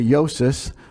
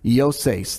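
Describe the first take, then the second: First: The name is said the common everyday way. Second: The name is said the original Greek way. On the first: This is how most people usually say it. The speaker calls it wrong. "most times we say Yosis" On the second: This is the technically correct original pronunciation. The speaker calls it right. "That's really technically how you say it"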